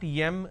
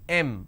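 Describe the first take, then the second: First: It begins with a y sound. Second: It begins directly with a vowel. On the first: The speaker calls it wrong. "everybody pronounces that as Yam" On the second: The speaker calls it right. "It's pronounced as M"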